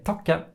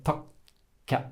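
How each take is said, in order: First: "to ka" run straight through with a short k; no break. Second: "to ka" with a clear silent gap before the k releases; long K. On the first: Teacher showing what we don't say, unbroken "to ka". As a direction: join "to ka" without waiting. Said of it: "We don't say". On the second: Teacher showing what we say instead, broken "to ka". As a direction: stop after "to", wait, release "ka". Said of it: "we say". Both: Shown as a demonstration.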